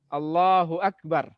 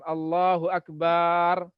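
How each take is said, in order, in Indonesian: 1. Vokal pada 'bar' dibaca pendek. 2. Vokal pada 'bar' dibaca panjang. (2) "Yang kadang-kadang keliru barnya dipanjangkan"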